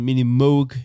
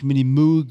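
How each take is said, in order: First: Moog is pronounced in the American way. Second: Moog is pronounced in a non-American way. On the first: The speaker calls it right. "das wird amerikanisch ausgesprochen" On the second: The speaker calls it wrong. "nicht Mini Moog"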